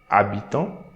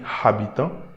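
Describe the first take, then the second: First: The h at the start is silent. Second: The h at the start is sounded. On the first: The speaker calls it right. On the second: The speaker calls it wrong.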